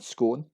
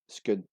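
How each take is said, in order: First: The vowel does not sound like in spoon. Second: The vowel sounds like the one in spoon. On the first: The speaker calls it wrong. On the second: The speaker calls it right.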